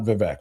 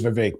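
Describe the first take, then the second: First: The second syllable rhymes with wreck. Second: The second syllable rhymes with rake. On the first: The speaker calls it wrong. "It's not Vivek" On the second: The speaker calls it right. "And it is Vivek, by the way"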